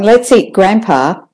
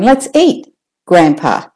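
First: Said in the usual way. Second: "Let's eat" up, "grandpa" down; pause at the comma. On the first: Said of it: "The first one". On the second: Shown as a demonstration. Teacher showing the comma with up-down tune. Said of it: "you can also hear where the comma is".

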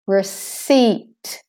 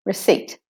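First: Receipt with a drawn-out "ee", "re-SEEET"; long EI. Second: Said in the usual way. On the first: Shown as a demonstration. Teacher shows the long E I, receipt as "re-SEEET". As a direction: stretch the second vowel of receipt long. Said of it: "The E I is said long".

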